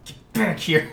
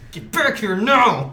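First: It is said in a plain, ordinary tone. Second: It is said sternly, like a scolding father.

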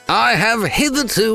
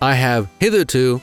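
First: It is read in an exaggerated British accent. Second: It is read in the speaker's usual accent.

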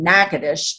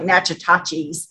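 First: The name is said in the local way. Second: The name is read as it is spelled. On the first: The speaker calls it right. "that's how you say it" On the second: The speaker calls it wrong. "I know it looks like Natchitoches"

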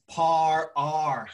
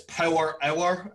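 First: Irish accent, squashed into very few syllables. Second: Scottish accent, drawn out into many syllables. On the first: "she's Irish. So she says par R" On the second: "For Scottish people, it's power hour. It sounds like it's got lots of syllables"

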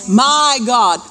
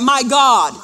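First: The stress is on the word my. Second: The stress is on the word God.

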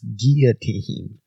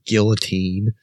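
First: The L sounds are left out. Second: The L sounds are clearly pronounced. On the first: The speaker calls it right. "it's guillotine" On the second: The speaker calls it wrong. "you don't say the L's in guillotine. It's not guillotine"

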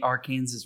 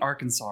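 First: The word ends sounding like 'Kansas'. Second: The word ends sounding like 'saw'. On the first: It names the river as locals in Kansas say it. "The river in Kansas is the Arkansas River" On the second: It names the river as the state name is said. "It's not the Arkansas River"

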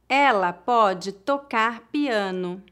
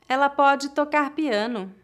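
First: The sentence is spoken slowly. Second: The sentence is spoken at natural speed. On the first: "uma vez mais devagar" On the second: "outra vez mais naturalmente"

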